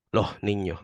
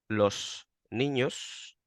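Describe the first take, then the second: First: "Los niños" with the S of "Los" breathed as an h and the final S gone; Andalusian aspirated S. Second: "los niños" said slowly, with both final S sounds fully hissed; careful "los niños" with every S said clearly; full standard S. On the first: Showing his own Andalusian speech, an aspirated "Los niños". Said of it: "yo digo los niños". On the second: Explaining Andalusian plurals, a slow Castilian "los niños". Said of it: "yo no digo". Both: Shown as a demonstration.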